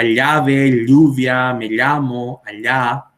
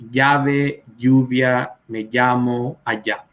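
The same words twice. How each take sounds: First: Llave, lluvia, llamo, allá with the ll like Portuguese lh; palatal ll. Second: Llave, lluvia, llamo, allá with ll as a plain y sound; young speakers' ll. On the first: Teacher demonstrates older Paraguayan ll like lh. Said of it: "seguimos pronunciando como la L H de portugués". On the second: Teacher demonstrates younger people's simplified ll. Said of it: "ya está diciendo simplemente". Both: Shown as a demonstration.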